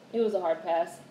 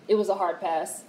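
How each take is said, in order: Both takes have the same delivery.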